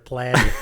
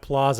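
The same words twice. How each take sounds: First: Plaza is said with a Midwestern vowel. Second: Plaza is said with a non-Midwestern vowel. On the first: "you're Plaza" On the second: "I think I'm Plaza"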